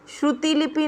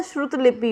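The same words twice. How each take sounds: First: श्रुति लिपि with an added i: shru-ti lipi; wrong pronunciation. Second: श्रुत लिपि with a bare t: shrut lipi; no vowel after the t in श्रुत लिपि; correct pronunciation. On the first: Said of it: "नहीं होता". (श्रुति लिपि में "ति" साफ़ बोलें) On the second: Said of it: "श्रुत लिपि होता है". (श्रुत लिपि में "त" बिना मात्रा के बोलें) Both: Shown as a demonstration.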